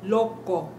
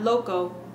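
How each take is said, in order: First: The o vowels are short, pure and unchanging. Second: The o vowels glide like English diphthongs. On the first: The speaker calls it right. "short and crisp sounds" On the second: The speaker calls it wrong. "not loco"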